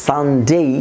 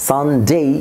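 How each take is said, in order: No difference in how they are said.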